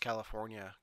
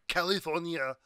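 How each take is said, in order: First: It is said in an ordinary accent. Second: It is said in an imitated foreign accent.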